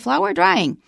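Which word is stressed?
drying. The stress falls on the word drying. The speaker calls it wrong. "We don't say"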